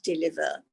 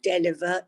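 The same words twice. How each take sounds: First: The first vowel sounds like 'i'. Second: The first vowel sounds like 'e'. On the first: The speaker calls it right. "it's pronounced with an I" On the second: The speaker calls it wrong. "it's written with an E, but it's not pronounced with an E"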